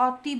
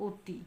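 First: অতি said as 'aw-ti'; wrong open vowel. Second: অতি said as 'o-ti'; rounded 'o' at the start of অতি, softly; closed o vowel. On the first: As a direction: open 'aw' at the start of অতি. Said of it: "আমরা কিন্তু অতি বলিনি". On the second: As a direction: say অতি quietly, first vowel like ও. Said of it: "আমরা কি বলেছি?". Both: Shown as a demonstration.

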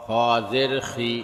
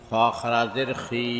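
First: Final "খি" cut short; quick short vowel. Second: Final "খি" held long; drawn-out vowel. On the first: Teacher demonstrating normal jer, short "খি". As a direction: keep the last "খি" brief, not held. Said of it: "তাড়াতাড়ি করতে হয়". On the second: Teacher demonstrating khara jer, long "খি". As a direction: stretch the last "খি" for one alif. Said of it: "একালিপ টেনে পড়তে". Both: Shown as a demonstration.

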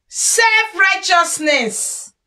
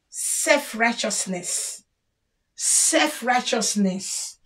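First: Slow announcement. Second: Self-righteousness said slowly and softer, falling; Self-righteousness murmured slowly as a verdict; soft slow summing up. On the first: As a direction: spell out Self-righteousness slowly, like a headline. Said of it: "announces the next flaw". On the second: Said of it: "names the flaw again". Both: Shown as a demonstration.

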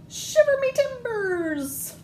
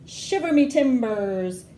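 First: Very high, slow squeaky pirate exclaim; little pirates. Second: Said in the usual way. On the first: Acted. Little pirates answering mommy in the bath, very high slow exclaim. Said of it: "say the little pirates".

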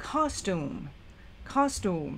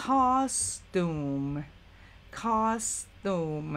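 First: Costume run together into one smooth quick word; now say costume fluidly at normal speed; faster, blended. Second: Costume stretched out very slowly, syllable by syllable. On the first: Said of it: "ออกเสียงรวบกันเร็วขึ้นกลายเป็น". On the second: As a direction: spell out costume slowly for learners. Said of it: "ค่อยๆออกเสียงช้าๆ". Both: Shown as a demonstration.

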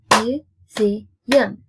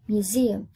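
First: MUSEUM split into mu, ze, um, louder; syllable by syllable. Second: Said in the usual way. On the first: Shown as a demonstration. Teacher counting three syllables for pupils, syllable by syllable. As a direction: punch out "Museum" in three separate beats. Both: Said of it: "Three syllables".

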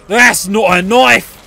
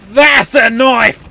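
First: Slow, drawn-out mock film quote; film-line parody. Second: Slow, emphatic mock film quote; film-line parody punchline. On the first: Player joking after breaking a knife, slow film-line parody. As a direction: draw out "knife" slowly. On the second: Player capping a knife joke, emphatic film-line parody. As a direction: lean slowly and proudly on "That's a knife".

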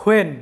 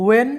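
First: When said "wen", starting on w; with a w sound. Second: When said "en", on a bare vowel; silent h and w. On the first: Teacher gives the second way to say when. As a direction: when begins with a rounded w. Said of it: "চাইলে এটা উচ্চারণ করতে পারো". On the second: Teacher gives the first way to say when. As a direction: when begins straight on the e. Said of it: "তুমি উচ্চারণ করতে পারো". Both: Shown as a demonstration.

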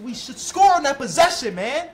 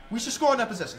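First: 1 loud complaint. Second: Said in the usual way. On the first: Real, not acted. Repeats complaint, louder first.

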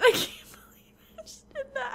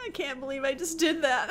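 First: Laughing whisper. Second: Whispered disbelief. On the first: Repeats it, laughing. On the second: Disbelief after own blunder. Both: Real, not acted.

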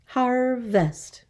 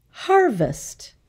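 First: "Harvest" in two beats, har-vest; syllable by syllable. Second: Said in the usual way. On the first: Shown as a demonstration. Teacher counting two syllables, "Harvest" split in two. Syllable lesson, word broken up.

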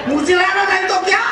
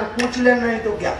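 First: High, punchy retold urging; exclaimed advice. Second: Said in the usual way. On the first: Old woman urging the wife to ask back, exclaiming. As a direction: call it out high and boldly.

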